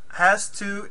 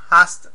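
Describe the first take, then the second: First: It is said as two clear words. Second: It is run together as one short word.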